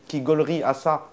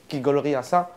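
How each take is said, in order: Both takes have the same delivery.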